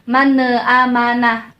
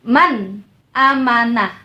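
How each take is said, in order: First: The n bounces into an extra a vowel. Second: The n ends firmly with no extra vowel. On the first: The speaker calls it wrong. "jangan dipantulkan mana amanah, mana salah" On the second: The speaker calls it right. "tegas dan jelas"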